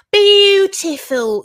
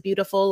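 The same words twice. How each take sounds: First: "beautiful" drawn out slowly, high and loud, with a y-glide on the U; liquid U in beautiful. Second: Said in the usual way. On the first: Shown as a demonstration. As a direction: stretch "beautiful" into a loud, high "byoo-tiful". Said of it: "where it's, like, a liquid U". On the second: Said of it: "listening for the accent when he says".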